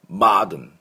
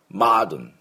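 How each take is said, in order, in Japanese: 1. 最初の母音は開いた音で、「ah」に近いです。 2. 最初の母音は開いた音で、「ah」に近いです。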